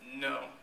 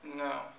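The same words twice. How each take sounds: First: The no is said harshly and roughly. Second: The no is said firmly but politely.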